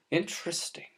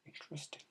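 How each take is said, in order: First: Said in the usual way. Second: Whispered under the breath. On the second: Real, not acted. Vlogger repeating Interesting to himself in a whisper. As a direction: breathe the word Interesting without voice.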